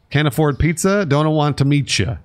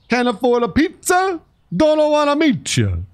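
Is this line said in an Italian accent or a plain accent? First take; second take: plain; Italian. First: It is said in the speaker's plain accent. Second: It is said in a put-on Italian accent.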